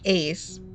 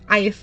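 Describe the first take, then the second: First: The name rhymes with 'face'. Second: The name rhymes with 'nice'. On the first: The speaker calls it right. "His name is actually Ace" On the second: The speaker calls it wrong. "I pronounced his name wrong too. I said Ice the entire time"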